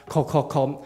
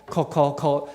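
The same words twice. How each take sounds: The two takes are said the same way.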